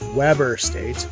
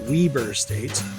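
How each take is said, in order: First: The name has the general, non-local pronunciation. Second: The name has the local, regional pronunciation. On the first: "Normal people call it" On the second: "locals pronounce it"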